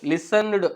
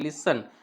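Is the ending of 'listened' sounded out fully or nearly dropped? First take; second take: fully; dropped. First: The ending is sounded out fully and clearly. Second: The ending is nearly dropped and silent. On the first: The speaker calls it wrong. "लिसनड असं नाही वापरायचं आहे" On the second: The speaker calls it right. "याला आपल्याला silent करून टाकायचं आहे ईला"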